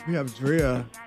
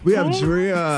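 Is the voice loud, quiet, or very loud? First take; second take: quiet; loud. First: The phrase is said at a normal volume. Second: The phrase is said more loudly.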